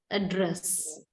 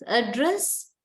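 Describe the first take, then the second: First: "address" stressed on DRESS, lower and falling; verb stress on second syllable. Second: "Address" stressed on AD, rising at the end; noun stress on first syllable. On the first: Teacher reads the verb of the pair, second-syllable stress on "address". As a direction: lean on DRESS in "address" and close it. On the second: Teacher reads the noun of the pair, first-syllable stress on "Address". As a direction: hit the start of "Address", leave it hanging upward. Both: Shown as a demonstration. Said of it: "find the syllable which is stressed".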